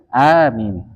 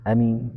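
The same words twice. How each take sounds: First: The first vowel is long with a light m. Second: The first vowel is short. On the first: "a-nya dimatkan, dipanjangkan, mimnya dibaca ringan" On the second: "Dibaca pendek ya"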